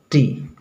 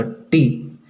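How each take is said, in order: First: टी formed close to the teeth; soft T. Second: टी with the tongue touching up on the palate; hard T. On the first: Teacher demonstrates the better sound to students, soft T. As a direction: bring the tongue forward for a soft टी. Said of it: "उसको दांत के करीब ले जाएंगे". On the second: Teacher demonstrates the usual habit to students, hard T. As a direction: make टी a hard retroflex sound. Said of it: "जीभ के ऊपर सटा देंगे". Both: Shown as a demonstration.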